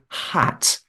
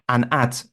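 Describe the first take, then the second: First: The word starts with a clear H sound. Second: The word starts without an H sound. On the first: The speaker calls it right. "it's wrong. It's a hat" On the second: The speaker calls it wrong. "an Italian person may say you are wearing an at"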